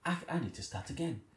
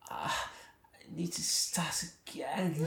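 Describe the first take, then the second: First: It is said in a plain English voice. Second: It is said in an exaggerated, overdone voice.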